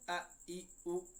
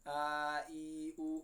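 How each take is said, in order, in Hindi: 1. स्वरों को झटके के साथ जल्दी से काट दिया जाता है। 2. स्वरों को लंबा खींचा जाता है। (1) "इतना जल्दी भी नहीं पढ़ना कि इसमें झटका महसूस हो ... ये भी गलत तरीका है" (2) "मुतहर्रिक हर्फ को बिल्कुल नहीं खींचना ... ये तरीका गलत है"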